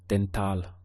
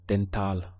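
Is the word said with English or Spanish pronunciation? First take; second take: Spanish; Spanish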